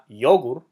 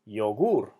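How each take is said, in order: First: The stress is on the first syllable. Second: The stress is on the last syllable. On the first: The speaker calls it wrong. "not yogur" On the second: The speaker calls it right. "so it's yogur"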